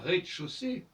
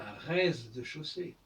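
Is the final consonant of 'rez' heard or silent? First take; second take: silent; heard. First: The z of rez is silent. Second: The z of rez is pronounced. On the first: The speaker calls it right. "on dit par exemple" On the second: The speaker calls it wrong. "on ne dit pas"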